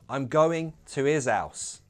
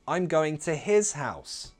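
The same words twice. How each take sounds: First: Both H sounds are dropped. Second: Both H sounds are pronounced. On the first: "So we could possibly drop both of those H's" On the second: "there's the option of keeping both H's"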